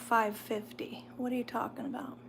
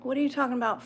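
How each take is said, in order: First: Quick unvoiced whisper. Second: Said in the usual way. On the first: Real, not acted. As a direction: whisper it fast, half to yourself. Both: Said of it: "repeat as whisper".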